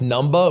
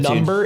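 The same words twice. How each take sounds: First: The word ends with an open 'ah' sound. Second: The word ends with an 'er' sound. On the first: The speaker calls it right. "They're all with a soft A to be clear. It's N U M B A H" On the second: The speaker calls it wrong. "it's not"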